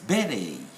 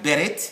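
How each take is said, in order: First: The word ends with an ay sound. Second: The word ends with a t sound. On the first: The speaker calls it right. "it's beret" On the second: The speaker calls it wrong. "this is not beret"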